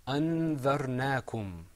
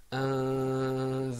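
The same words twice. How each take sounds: First: "أنذرناكم" with the first n clearly articulated; "أنذرناكم", clear n before the dhal; without ikhfa. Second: "أنذرناكم" with the first n hidden in a long hum; "أنذرناكم", long nasalized hum before the dhal; with ikhfa. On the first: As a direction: sound the noon distinctly in "أنذرناكم". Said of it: "this example is pronounced without ikhfa". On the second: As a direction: draw out the hidden noon in "أنذرناكم". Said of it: "With ikhfa, it's pronounced". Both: Shown as a demonstration.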